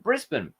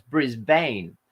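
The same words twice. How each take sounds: First: "Brisbane" with a reduced ending, BRIS-bun; "Brisbane" said with a weak schwa, "bun" not "bane"; local pronunciation. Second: "Brisbane" read as written, ending in "bane"; "Brisbane" with the long "ay" in the last syllable; American spelling-pronunciation. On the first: Showing viewers how Australians really say it, BRIS-bun. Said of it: "the English all call it". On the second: Mimicking Americans reading the city name, BRIS-bane. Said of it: "how we've been taught to read words". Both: Shown as a demonstration.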